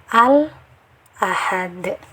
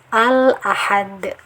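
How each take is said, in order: First: There is a brief breath pause after 'al'. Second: It flows straight on with no pause. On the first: The speaker calls it wrong. "diberi jeda di sini" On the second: The speaker calls it right. "Harus dibaca jelas"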